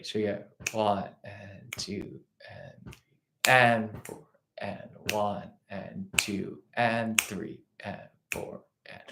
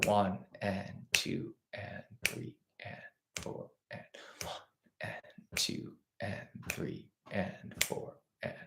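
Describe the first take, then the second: First: Whispered one and two and three with accents on the groupings; accented count. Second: Counting eighths. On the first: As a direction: lean on the first of each group, quietly. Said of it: "groupings of two and three". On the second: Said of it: "our subdivision, our eighth note". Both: Shown as a demonstration.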